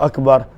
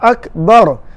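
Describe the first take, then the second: First: The vowel after the b is short. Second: The vowel after the b is drawn out long. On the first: The speaker calls it right. "sepatutnya bunyi takbiratul ihram Allahu Akbar" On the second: The speaker calls it wrong. "Contoh menjadi panjang"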